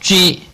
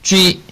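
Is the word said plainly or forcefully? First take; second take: forcefully; plainly. First: The word is said more strongly and forcefully. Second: The word is said plainly, without extra force.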